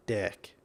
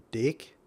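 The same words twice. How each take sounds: First: "deck" with an open e, falling softly; "deck" falling and a touch softer; saying deck. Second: "Dick" with a short i, rising; saying dick. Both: Shown as a demonstration. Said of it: "can you hear the difference".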